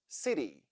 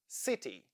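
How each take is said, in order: First: The middle consonant is a d-like flap. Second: The middle consonant is a clear t. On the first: "Now let's read it with flap T" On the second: "read these words with the sound T"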